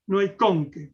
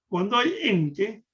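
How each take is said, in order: First: "con" hit hard, with the accent on its O, in "hay con que"; stress on CON. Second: Slow, with the accent on the E of "en" in "hay en que"; stress on EN. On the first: Showing where the accent falls, stress on "con". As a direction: punch the word "con" before an unstressed "que". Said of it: "pongamos el acento en la O". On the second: Telling the reader where the accent goes, stress on "en". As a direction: lean on the word "en" in "hay en que". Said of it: "ponga el acento en la primera E". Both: Shown as a demonstration.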